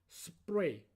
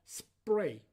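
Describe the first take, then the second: Both takes have the same delivery.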